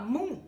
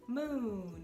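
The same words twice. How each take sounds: First: The final n is left open and nasal. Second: The tongue fully closes on the final n. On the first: Listeners may not understand the word. The speaker calls it wrong. "se você falar moon, talvez eles não entendam" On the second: Listeners understand the word. The speaker calls it right. "lembra de fechar N"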